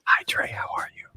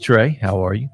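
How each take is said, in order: First: It is said in a soft, whispery ASMR voice. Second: It is said in a normal speaking voice.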